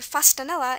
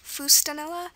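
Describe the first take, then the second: First: The first vowel is a reduced schwa. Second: The first vowel is a clear u sound.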